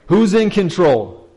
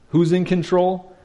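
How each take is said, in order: First: It is said louder. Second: It is said at normal volume.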